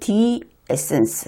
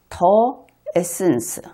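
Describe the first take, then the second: First: The article sounds like 'thee', English-style. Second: The article sounds like 'thuh', Korean-style. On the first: "영어 발음은 the essence 해야 될" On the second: "여기에서는 더 에센스"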